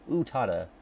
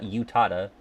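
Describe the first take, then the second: First: The first vowel is drawn out long. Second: The first vowel is clipped short. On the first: The speaker calls it right. "it's two. It's like ooh Utada" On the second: The speaker calls it wrong.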